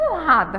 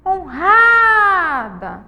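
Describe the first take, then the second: First: Said in the usual way. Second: Honrada with RA held very long, high and loud; calling the word. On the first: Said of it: "é simplesmente chamar". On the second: Shown as a demonstration. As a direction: shout out "Honrada", stretching the ra. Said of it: "O ra é a sílaba mais". (chamar "Honrada" alto, alongando o ra)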